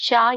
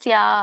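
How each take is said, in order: First: The syllable begins with a sh sound. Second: The syllable begins with a plain s sound. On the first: The speaker calls it wrong. "ಶ್ಯಾ ಇಲ್ಲ" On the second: The speaker calls it right. "ಸ್ಯಾ ಇದೆ"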